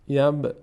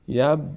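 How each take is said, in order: No difference in how they are said.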